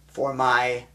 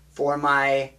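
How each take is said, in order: Both takes have the same delivery.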